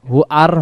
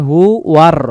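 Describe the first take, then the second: First: হু আর said without the w, as hu-ar; the mistake: হু আর with a bare আর; wrong pronunciation. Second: হু ওয়ার with a clear w glide into ওয়ার; correct pronunciation. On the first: Teacher showing students the wrong form: হু আর. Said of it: "হু আর হবে না". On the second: Teacher showing the correct joined form: হু ওয়ার. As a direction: join them as hu-war. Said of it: "উচ্চারণ হবে হু ওয়ার". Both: Shown as a demonstration.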